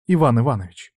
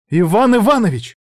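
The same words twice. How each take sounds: First: Cold and level, falling at the end; icy cold. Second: High, loud, losing control; breaking into a shout. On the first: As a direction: say the name flatly, keeping control. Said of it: "ледяной, как айсберг, голос Иры". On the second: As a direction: shout the name, at the end of her rope. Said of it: "сорвалась на крик". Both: A narrator's reading.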